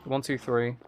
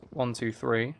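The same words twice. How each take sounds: The two takes are said the same way.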